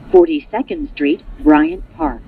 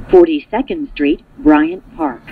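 No difference in how they are said.

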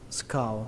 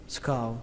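The two takes are said the same way.

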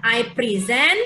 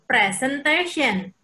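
First: "I present" with stress on SENT; verb stress preSENT. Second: Careful slow "presentation". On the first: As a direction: lean on the second syllable of "present". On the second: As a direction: say "presentation" slowly, stress on TA. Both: Shown as a demonstration. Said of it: "Memang beda".

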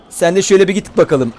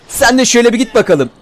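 First: Said in the usual way. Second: Higher teasing push-off; mocking send-off. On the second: Real, not acted. Gamer shoving a zombie off, mocking and higher. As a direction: tease him as you shove him away.

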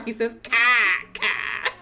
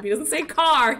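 First: Car said slowly as Boston cah, no r; demonstrating son's Boston car; Boston accent. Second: Said in the usual way. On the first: Shown as a demonstration.

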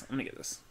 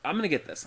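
First: Whispered repeat of the line; voiceless echo to yourself. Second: Said in the usual way. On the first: Shown as a demonstration. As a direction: breathe it out with no voice.

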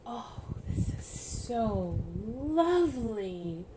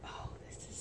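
First: Slow, drawn-out tender admiration. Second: Whisper. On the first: Admiring the baby romper, slow and tender. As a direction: savour each word, slowly. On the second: Admiring a tiny romper. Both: Real, not acted.

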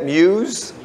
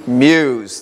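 First: "Muse" tried as myooz with a questioning rise; questioning pronunciation. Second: "Muse" settled as myooz, lower, falling firmly; corrected pronunciation. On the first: Pastor checking pronunciation with the congregation, tentative rise. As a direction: test the word "Muse" aloud, unsure, rising. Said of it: "Is that how you say it?". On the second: Pastor accepting the congregation's correction, settled fall. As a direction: land on "Muse" as myooz, confident now. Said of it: "Thank you". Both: Shown as a demonstration.

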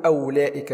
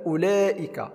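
First: أولئك begun "aw-laa-ika", waw pronounced; wrong sounded waw. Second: أولئك begun with short "u", "u-laa-ika"; silent waw. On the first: Teacher shows the mistake, أولئك with audible waw. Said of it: "لا نقول". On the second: Teacher gives the correction, أولئك with silent waw. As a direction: leave the w out of أولئك. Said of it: "هذا الواو لا ينطق". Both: Shown as a demonstration.

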